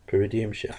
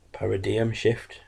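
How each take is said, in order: First: Quicker "paradigm" said as "puh-ruh-dee-um"; retry "paradigm" with a reduced first vowel, "puh-ruh-DEE-um"; mispronounced "paradigm". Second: Slow, careful "Paradigm" said as "parra-dee-um"; mispronounced "Paradigm". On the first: Reviewer retrying a wrestling finisher's name, quicker muddled mispronunciation. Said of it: "I can never pronounce it properly". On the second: Reviewer attempting a wrestling finisher's name, slow careful mispronunciation. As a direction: sound out "Paradigm" slowly, landing on "parra-DEE-um". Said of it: "I can never say it properly".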